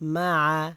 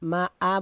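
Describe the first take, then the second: First: The second vowel starts deep in the throat. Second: The second vowel starts with a plain glottal catch. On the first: The speaker calls it right. "আমি যেরকম বলতেছি ওইভাবে বলার চেষ্টা করবেন।" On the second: The speaker calls it wrong. "বললে কিন্তু হামজা হবে"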